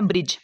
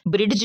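First: "ब्रिज" with only the j sound; silent d. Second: "ब्रिड्ज" with a separate d before j; wrong pronunciation. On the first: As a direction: drop the d from "ब्रिज". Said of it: "इसको हमने पढ़ना है". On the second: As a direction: sound the d in "ब्रिड्ज". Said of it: "नहीं पढ़ना". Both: Shown as a demonstration.

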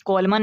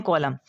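First: "कॉलमन" with a final n sounded; wrong pronunciation. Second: "कॉलम" ending on m, no n; silent n. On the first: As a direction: add the n at the end of "कॉलमन". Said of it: "नहीं पढ़ते". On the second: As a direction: drop the final n from "कॉलम". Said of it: "इसको पढ़ते हैं". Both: Shown as a demonstration.

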